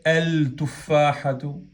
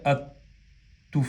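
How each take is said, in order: First: "el tufahatu" slow, with a separate L before the t; unfused lam. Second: "at-tufahatu" with no L, a doubled t instead; fused lam. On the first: Teacher showing what is not said, L left unfused. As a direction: wrongly sound the L in "el tufahatu". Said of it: "no se dice". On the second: Teacher showing how it is said, lam fused into t. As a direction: merge the article into a held t in "at-tufahatu". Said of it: "se fusiona y se dice". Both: Shown as a demonstration.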